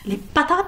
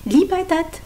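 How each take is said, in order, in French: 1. C'est dit avec un accent dur et lourd. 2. C'est dit avec un accent doux et mignon. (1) "ça a un côté agressif" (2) "ça a un côté mignon"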